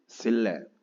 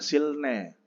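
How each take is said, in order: First: The middle is said as a double l. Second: The middle is said as l then n. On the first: The speaker calls it right. "dibacanya L double. Kayak L L gitu jadinya" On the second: The speaker calls it wrong. "Jadi jangan silne"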